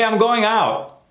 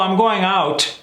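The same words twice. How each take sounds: First: The T at the end of 'out' is dropped. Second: The T at the end of 'out' is pronounced. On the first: The speaker sounds more authentic and natural. The speaker calls it right. "Let's try killing those T's" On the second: The speaker sounds like they are trying too hard. The speaker calls it wrong. "when people pronounce the T's at the end"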